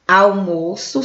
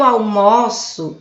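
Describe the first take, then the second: First: The stressed vowel is closed. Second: The stressed vowel is open. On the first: It is a noun, the meal. "só fechado, o almoço é o substantivo" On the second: It is a verb, the act of eating lunch. "É ação, ou seja, já é um verbo"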